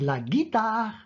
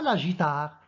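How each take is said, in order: First: The word starts with a hard g sound. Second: The word starts with a soft zh sound. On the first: The speaker calls it right. "c'est la guitare" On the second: The speaker calls it wrong. "si on enlève le U, on va dire la guitare. Or, ce n'est pas la guitare"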